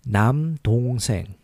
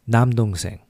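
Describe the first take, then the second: First: It is said slowly. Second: It is said faster.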